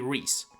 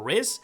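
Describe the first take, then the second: First: The name is said like 'reese'. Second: The name is said like 'riz'. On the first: The speaker calls it right. "but is actually Rhys" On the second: The speaker calls it wrong. "or Riz"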